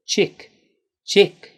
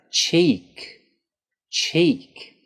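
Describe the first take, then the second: First: "Chick" with a short clipped i; wrong short i. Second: "cheek" with a long stretched ee; correct long E. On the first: Teacher showing the mistake to avoid. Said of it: "I'll say it incorrectly". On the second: Teacher giving the correct long vowel. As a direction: draw out the ee in "cheek". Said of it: "What we need you to say is that long E sound". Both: Shown as a demonstration.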